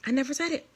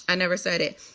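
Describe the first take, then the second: First: Softer high echo of the fake denial; mock denial, softer. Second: Said in the usual way. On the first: Still mimicking the pastor, softer mocking echo. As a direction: toss it off quietly, mocking.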